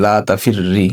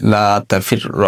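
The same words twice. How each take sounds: First: "লা তাফির রি" with a doubled r ending on a short i; recited with kasra. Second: "লা তাফির র" with a doubled r ending on a short a; recited with fatha. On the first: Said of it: "আমরা পড়তে পারি জেদ". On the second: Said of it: "এখানে আমরা পড়তে পারি জবর দিয়ে". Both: Shown as a demonstration.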